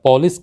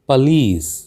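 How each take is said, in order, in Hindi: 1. बल पहले अक्षर पर है। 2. बल अंतिम अक्षर पर है। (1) "हम हम इसको पुलिस या पॉलिस कह देते हैं" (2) "अंतिम जो शब्द है लीस, इस पर आपको जोर देना चाहिए"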